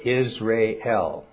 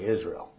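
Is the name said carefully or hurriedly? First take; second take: carefully; hurriedly. First: The vowels are said as separate sounds. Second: The vowels are run quickly together. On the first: The speaker calls it right. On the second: The speaker calls it wrong.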